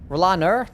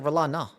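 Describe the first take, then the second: First: The name ends with an R sound. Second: The name ends with an open 'ah' sound. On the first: "it sounded like it ended with an R" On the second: "It's Roland Ah"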